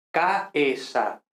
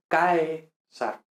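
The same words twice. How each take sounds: First: "caesar" split as CA-E-sar, a and e apart; over-stressed hiatus. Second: "caesar" as CAE-sar, ae glided in one syllable; proper diphthong. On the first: Teacher shows over-emphasized accent, vowels in hiatus. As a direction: break "caesar" into three separate syllables. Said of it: "hiato, es decir". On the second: Teacher corrects to a diphthong, two slow syllables. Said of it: "realmente debería ser caesar". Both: Shown as a demonstration.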